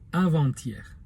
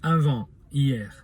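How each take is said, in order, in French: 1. Le T se prononce, il relie les deux mots. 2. Le T est muet, avec une courte pause. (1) "se prononce avant-hier. Le T se fait entendre" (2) "le T est muet et on fait une petite pause entre les deux mots"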